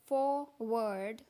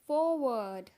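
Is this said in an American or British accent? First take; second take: American; British. First: American accent, with the r sound pronounced. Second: British accent, with the r sound dropped. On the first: "American में बोलते हैं" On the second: "British में बोलते हैं; आर का sound गायब हो जाता है"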